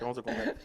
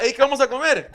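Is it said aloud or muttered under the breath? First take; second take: muttered; aloud. First: It is muttered quietly under the breath. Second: It is said aloud in a normal voice.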